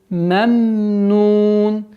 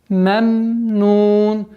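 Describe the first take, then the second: No difference in how they are said.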